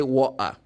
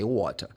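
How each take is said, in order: First: "water" as "wa'uh", no t; street pronunciation. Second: "water" with the t sounded; formal pronunciation. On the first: Teacher showing everyday street speech, t dropped from "water". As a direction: glottal stop for the t in "water". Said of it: "But, like, in the Middle Strait". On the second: Teacher showing formal British English, t pronounced in "water". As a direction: keep a clear t in "water". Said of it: "If it comes to formal language". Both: Shown as a demonstration.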